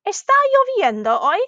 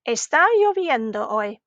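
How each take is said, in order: First: "Está lloviendo hoy" high on "lloviendo", swooping up on "hoy"; "Está lloviendo hoy" as an exaggerated question; rising question. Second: "Está lloviendo hoy" told, not asked; statement intonation. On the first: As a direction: ask "Está lloviendo hoy" with a big final lift. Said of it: "that was another question". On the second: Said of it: "that one was not a question". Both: Shown as a demonstration.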